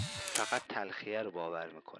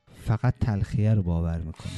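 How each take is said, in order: First: Softer echo. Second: Said in the usual way. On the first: Shown as a demonstration. Repeated line, much softer.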